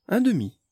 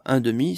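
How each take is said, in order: First: Put-on high, bright-pitched young woman's voice; Amélie's order. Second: Said in the usual way. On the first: Amélie ordering a half-pint, voiced high.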